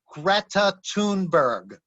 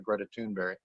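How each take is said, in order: First: The surname ends with a hard g sound. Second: The surname ends with a y-like sound. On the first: This is how Americans say it. The speaker calls it wrong. "the Americans they say" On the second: This is how it is said in Swedish. The speaker calls it right. "the correct pronunciation of her name in Swedish"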